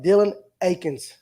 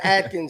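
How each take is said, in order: First: The name is said without a T sound. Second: The name is said with a T sound. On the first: The speaker calls it right. "I said it right right there that time" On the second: The speaker calls it wrong. "was saying Atkins here earlier"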